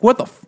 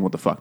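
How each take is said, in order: First: High, loud mock outburst; imitated yelling. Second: Said in the usual way. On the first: Mother-in-law tearing into a late, drunk son-in-law, mock yelling. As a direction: yell it like an angry mother-in-law. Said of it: "rapidly yelling at him". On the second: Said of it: "I mean, not saying".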